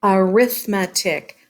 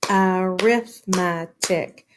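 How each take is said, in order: First: Said in the usual way. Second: "arithmetic" slowly as a-rith-me-tic; syllable by syllable. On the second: Shown as a demonstration. Teacher counting four syllables, arithmetic slowly broken apart. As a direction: pull "arithmetic" into four even beats. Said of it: "Four syllables in arithmetic".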